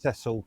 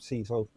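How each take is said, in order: First: The name is said the non-American way. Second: The name is said the American way. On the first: The speaker calls it right. "his name is pronounced Cecil" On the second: The speaker calls it wrong. "not Cecil. I know it's maybe an American or something"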